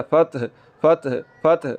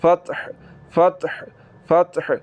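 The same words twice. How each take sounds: First: फतह with a harsh deep-throat ह; teacher demonstrating the wrong फतह; wrong low-throat ha, slow. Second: Teacher modelling correct फतह; ha from mid-throat. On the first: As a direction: slowly show the wrong फतह. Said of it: "इसको फतह नहीं पढ़ना". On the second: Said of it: "हलक के दरमियान वाले हिस्से से निकालते". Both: Shown as a demonstration.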